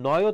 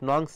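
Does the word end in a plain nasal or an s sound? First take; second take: nasal; s sound. First: The word ends in a plain nasal sound. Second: The word ends with an added s sound. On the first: The speaker calls it right. "উচ্চারণটা হবে নয় তৎপুরুষ" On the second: The speaker calls it wrong. "নংস না"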